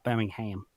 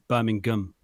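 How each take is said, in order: First: It is said the American way. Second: It is said the British way. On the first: The speaker calls it wrong. "not Birmingham" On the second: The speaker calls it right. "in English, if you were curious, it's Birmingham"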